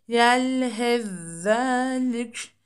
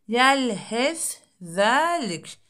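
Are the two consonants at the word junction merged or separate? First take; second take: merged; separate. First: The first consonant merges into a doubled second one. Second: The two consonants are pronounced separately.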